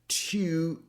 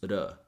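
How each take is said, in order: First: The word has a clear T and full vowel. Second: The word has a flap T and schwa.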